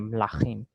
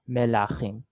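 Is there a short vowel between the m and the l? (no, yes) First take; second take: no; yes. First: The first two consonants are said together. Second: A short vowel separates the first two consonants.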